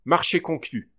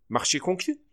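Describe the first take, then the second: First: "Marché conclu" as a statement, stressed on "Marché", falling; "Marché" punched, then a falling close; answering tune. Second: "Marché conclu?" as a question, rising on "conclu"; "conclu" raised high, a real question; asking tune. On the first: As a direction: accept the deal, let "conclu" fall. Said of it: "répondit le directeur". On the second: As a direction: offer the deal, lift "conclu" at the end. Proposing a deal, asking. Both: A narrator's reading.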